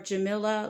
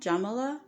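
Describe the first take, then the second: First: The name rhymes with vanilla. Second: The name rhymes with Pamela. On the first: "like vanilla" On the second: "like Pamela"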